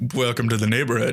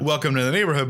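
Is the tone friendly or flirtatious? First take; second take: flirtatious; friendly. First: It sounds flirtatious and suggestive. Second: It sounds plainly friendly and neighborly.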